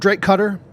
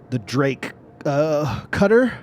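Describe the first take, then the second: First: It sounds sure and confident. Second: It sounds hesitant and unsure.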